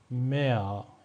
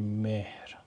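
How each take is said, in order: First: The h is silent and the vowel is lengthened. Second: The h sound is clearly pronounced. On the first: The speaker calls it right. "میگیم میا. یکم کلمه رو میکشیم ها تلفظ نمیشه" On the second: The speaker calls it wrong. "نمیگیم مهر"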